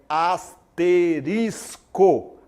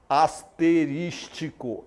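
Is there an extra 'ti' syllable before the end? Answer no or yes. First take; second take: no; yes. First: There is no extra ti syllable before the end. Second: An extra ti syllable comes before the end. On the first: The speaker calls it right. "é asterisco" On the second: The speaker calls it wrong. "você não vai falar asterístico"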